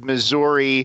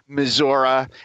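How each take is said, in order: First: It is said the way outsiders pronounce it. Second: It is said the way locals pronounce it. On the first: The speaker is not from there. "the rest of the country says Missouri" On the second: The speaker is from there. "if you're actually from there, you say Missouri"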